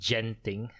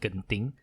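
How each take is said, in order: First: It begins with a j sound. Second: It begins with a hard g sound. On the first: This is how some other people say it. "because it's gent, like gentleman" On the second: This is how locals say it. "we call it genting"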